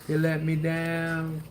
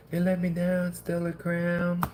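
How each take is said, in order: First: Slow, drawn-out playful lament over the pack; lightly hammed-up sorrow; mock heartbreak. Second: Higher, slowing right down on crown; a half-joking cry of betrayal at the set; mock wail. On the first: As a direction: sulk it out slowly like a jilted lover. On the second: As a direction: pitch it up into a hammed-up wail. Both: Mock heartbreak at a bad pull.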